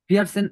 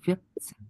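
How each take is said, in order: First: A full r sound is heard mid-word. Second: The r is silent, replaced by a clipped stop. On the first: The speaker calls it wrong. "এভাবে র পুরোপুরি বুঝাবেন না" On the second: The speaker calls it right. "এভাবে করে দিবেন"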